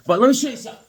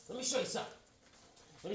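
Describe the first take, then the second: First: Rushed, fast. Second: Much softer, higher repeat. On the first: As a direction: hurry the line out. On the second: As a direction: say it again under your breath. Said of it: "All right, but let me show you something". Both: Shown as a demonstration.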